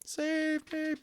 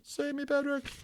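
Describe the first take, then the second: First: Pitched way up, thin and pleading; a terrified boy begging for rescue; high desperate plea. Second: Pitched way up, thin and pleading, calling Patrick; high desperate plea. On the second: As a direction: cry out for Patrick to save you. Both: A narrator's reading. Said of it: "Omri began screaming silently".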